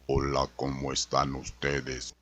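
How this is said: The voice is deep and very thick.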